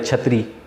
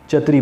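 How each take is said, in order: First: The first consonant is said with a breath puff. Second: The first consonant is said without a breath puff. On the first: The speaker calls it right. "जैसे लफ्ज़ है छतरी" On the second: The speaker calls it wrong. "वो उसको चतरी चतरी बोलेगा"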